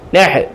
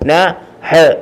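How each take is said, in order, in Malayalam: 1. ശബ്ദങ്ങൾ ചേർന്ന് ഒരു അക്ഷരമാകുന്നു. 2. രണ്ട് വെവ്വേറെ അക്ഷരങ്ങൾ ഓരോന്നായി പറയുന്നു.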